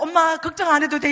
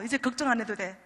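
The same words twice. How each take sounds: First: 안 해도 돼 called out loud and joyful; loud, thrilled "엄마 걱정 안 해도 돼"; excited reassurance. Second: Said in the usual way. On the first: Retold or imitated. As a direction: shout the good news to mom. Daughter's excited letter retold.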